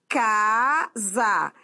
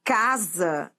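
First: "casa" very slow, long "ca", then "sa"; stress on first syllable. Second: Said in the usual way. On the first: Shown as a demonstration. Teacher showing why casa takes no accent, drawn-out stress. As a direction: split "casa" and hold the "ca". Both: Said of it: "É paroxítona".

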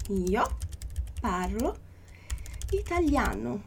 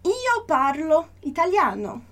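First: Io, parlo, italiano with clear pauses between each word; slow word-by-word dictation. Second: Slow, even model reading; slow teacher read; slow model phrase. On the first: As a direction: break it into three words for the student. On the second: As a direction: read it slowly as one phrase for the student. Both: Shown as a demonstration. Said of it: "Então, olha só".

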